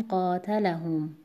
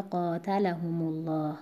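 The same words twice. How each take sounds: First: قاتلهم ending on a still m; pausal form. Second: قاتلهم الله joined as "humu-llah"; linked form, same stress. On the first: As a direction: say قاتلهم alone, closing on "hum". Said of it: "این کلمات رو با سکون بخونید". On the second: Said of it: "همون وزن رو". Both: Shown as a demonstration.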